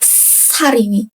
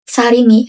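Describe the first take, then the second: First: The first s sound is tense and hissier. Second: The first s sound is plain and soft. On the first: "yang ini lebih ngeses" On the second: "yang S kemarin itu Sarimi aja"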